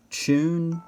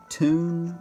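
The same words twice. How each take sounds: First: "tune" said toon, no y sound; "tune" with a plain oo. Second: "tune" said tyoon, with a y glide; "tune" with a y before the oo. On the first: Showing his two ways of saying tune. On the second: Showing his other way of saying tune. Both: Shown as a demonstration. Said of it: "I flip between the two".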